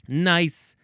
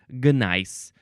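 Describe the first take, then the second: First: The word begins directly with an N sound. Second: The word begins with a hard G sound. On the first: The speaker calls it right. "you don't say the G sound at all" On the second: The speaker calls it wrong. "You don't say gnice"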